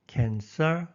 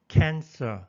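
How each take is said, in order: First: The stress is on the second syllable. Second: The stress is on the first syllable. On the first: The speaker calls it wrong. "종종 cancer 하고 들리는 경우가 있습니다" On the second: The speaker calls it right. "앞에 액센트가 있습니다"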